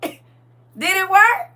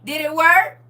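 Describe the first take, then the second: First: Mock suspense. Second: Said in the usual way. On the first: Shown as a demonstration.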